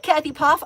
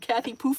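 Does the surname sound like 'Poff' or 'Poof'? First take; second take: Poff; Poof. First: The surname is said like 'Poff'. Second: The surname is said like 'Poof'. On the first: The speaker calls it right. "I apologize so much for mispronouncing your name" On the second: The speaker calls it wrong. "I've been calling you Kathy Poof for so long"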